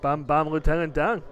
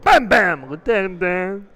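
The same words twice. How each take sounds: First: The phrase is said at a normal volume. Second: The phrase is shouted loudly and energetically.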